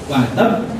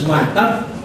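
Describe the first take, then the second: The two takes are said the same way.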